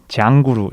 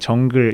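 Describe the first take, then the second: First: It is said with Japanese-style added vowel endings. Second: It is said with plain Korean-style English sounds.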